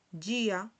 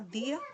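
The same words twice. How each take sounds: First: Dia as "JI-a"; Portuguese reading. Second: Said in the usual way. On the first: Shown as a demonstration. Teacher reads the example word, dia said "JI-a". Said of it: "Entonces aquí". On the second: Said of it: "que significa día en español".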